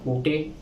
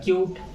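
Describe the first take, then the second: First: It is said as two syllables, koo-tay. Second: It is said as one syllable, kyoot. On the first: The speaker calls it wrong. "अगर मैं इसको पढ़ता हूं आपके अनुसार" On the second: The speaker calls it right. "ये हो गया क्यूट"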